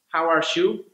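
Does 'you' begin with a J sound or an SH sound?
SH sound. The 'you' starts with an SH sound. "In Argentina, they tend to pronounce it with uh, S H sounds"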